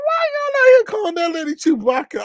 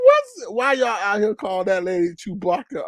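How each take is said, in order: First: Much higher, loud, half-crying laughing yell; incredulous shriek. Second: Said in the usual way. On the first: Retold or imitated. Host shrieking at chat over a Chewbacca nickname, incredulous. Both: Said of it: "I'm like".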